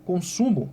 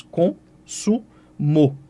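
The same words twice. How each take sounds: First: Said in the usual way. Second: Consumo spelled out slowly as con-su-mo; slow teacher's syllable split of Consumo. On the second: Shown as a demonstration. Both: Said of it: "eu faço em três sílabas".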